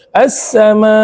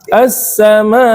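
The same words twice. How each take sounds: First: The voice stays flat at the end. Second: The voice is raised at the end. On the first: The speaker calls it wrong. "Enggak boleh gitu" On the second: The speaker calls it right.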